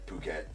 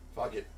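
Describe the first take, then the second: First: It begins with a P sound, like 'poo-ket'. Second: It begins with an F sound, like 'fuck it'. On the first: "Excuse me" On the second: "It's just way more fun to say"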